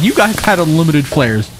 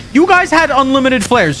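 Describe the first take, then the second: First: Said in the usual way. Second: Squeaky mock complaint, pitched way up; taunting high squeal; high mocking whine. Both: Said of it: "Shut your mouth".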